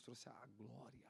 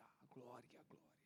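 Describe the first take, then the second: First: Drawn out, slow and softening; slow hushed glory. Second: Breathy whisper fading away; whispered glory. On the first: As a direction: let "trouxe a glória" sink slowly. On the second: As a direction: breathe "a glória" out to nothing. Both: Acted. Sermon climax fading on glory.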